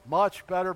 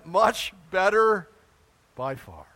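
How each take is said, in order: First: Said in the usual way. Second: Much better said slowly and loud, with a lot of weight; stress on better. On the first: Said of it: "How, how great are the Buffalo Bills?". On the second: Shown as a demonstration. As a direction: stretch out "Much better" for heaven. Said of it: "Well, how great is heaven?".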